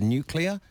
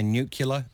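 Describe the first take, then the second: First: The word is said as nu-cle-ar. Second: The word is said as nu-cu-lar. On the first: The speaker calls it right. "instead of nuclear" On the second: The speaker calls it wrong. "people on the fly say nuclear instead of"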